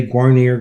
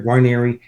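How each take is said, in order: First: GUARNIER ending in "-neer", no final vowel; family name variant. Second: GUARNIERI with a final "ee" sound; alternative name pronunciation. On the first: Son showing how cousins say the surname, pronunciation demo. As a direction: say "Guarnier" with a last syllable like "near". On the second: Man giving the other family version of the surname, pronunciation demo. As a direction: say "Guarnieri" ending in "-ee". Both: Shown as a demonstration. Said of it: "My cousins say Guarnier".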